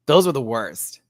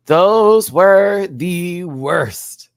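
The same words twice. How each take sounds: First: Said in the usual way. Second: Stretched, louder and higher; slow emphatic drawl. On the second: Real, not acted. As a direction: drag every word out in disgust. Drawn out emphatic repeat.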